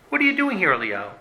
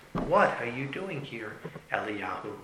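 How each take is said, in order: First: High-pitched demand, dropping on the name; exasperated challenge. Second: Slow, hushed question fading away; small, whisper-like voice. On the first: God confronts Eliyahu in his pity party, exasperated. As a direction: challenge him high, then drop away. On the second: A small voice questions Eliyahu at the cave, hushed. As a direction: ask softly and slowly, sinking on the name. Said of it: "a voice which was a small whisper". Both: Acted.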